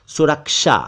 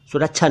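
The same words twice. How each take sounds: First: सुरक्षा said as "surak-sha"; correct pronunciation. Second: सुरक्षा said as "surak-chha"; mispronounced सुरक्षा. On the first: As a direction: clear k-sh in सुरक्षा. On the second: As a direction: chh for sh in सुरक्षा. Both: Shown as a demonstration. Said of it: "सुरक्षा नहीं".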